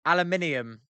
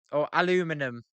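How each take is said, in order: First: "aluminium" with five syllables, al-yoo-MIN-ee-um; British pronunciation. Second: "aluminum" with four syllables, a-LOO-mi-num; "aluminum" said as uh-LOO-muh-num; American pronunciation. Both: Retold or imitated. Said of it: "You guys also say".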